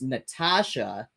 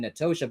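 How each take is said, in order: First: The middle vowel sounds like 'ah'. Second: The middle vowel sounds like 'oh'. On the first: The speaker calls it right. "but it's actually pronounced Natasha" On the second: The speaker calls it wrong. "I'm seeing N A T O S H A and saying Natosha"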